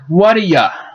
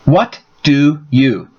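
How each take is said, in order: First: The words blend, and 'do' shrinks to a weak sound. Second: Each word is said fully with clear stress. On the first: "When it is removed, it sounds like what a ya" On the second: "To say do you by themselves, there is a lot more stress"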